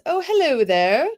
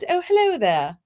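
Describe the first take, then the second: First: It is said in the speaker's ordinary accent. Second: It is said in a put-on English accent.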